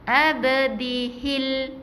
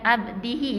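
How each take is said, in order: First: The word ends with a joined L sound. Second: The word ends on a vowel without L. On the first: The speaker calls it right. "Jadi abdihil" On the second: The speaker calls it wrong. "bukan abdihi eh"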